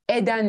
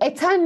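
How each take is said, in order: First: It uses the soft d sound in the middle. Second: It keeps the hard t sound in the middle. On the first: The speaker calls it right. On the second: The speaker calls it wrong.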